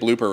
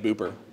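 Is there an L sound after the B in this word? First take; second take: yes; no. First: The word has an L sound after the B. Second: The word has no L sound after the B. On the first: The speaker calls it right. "He didn't even say blooper right" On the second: The speaker calls it wrong. "He said like booper"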